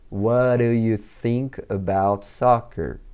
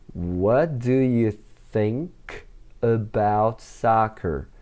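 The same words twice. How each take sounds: First: It is spoken at a faster, connected pace. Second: It is spoken at a slower, careful pace.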